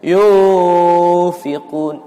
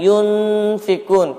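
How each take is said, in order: First: The 'n' before 'f' is dropped entirely. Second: The 'n' before 'f' is fully clear. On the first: "Yufikun, jauh" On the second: "jangan yunfikun, kurang betul... namanya idhar"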